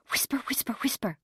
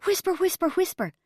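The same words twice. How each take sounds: First: Higher, hushed worried muttering; anxious. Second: High-pitched frantic gabble; agitated, high stage whisper. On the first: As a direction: fret under your breath. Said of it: "went Mum anxiously". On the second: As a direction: answer in a flap, high and urgent. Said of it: "Dad replied frantically". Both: A narrator's reading.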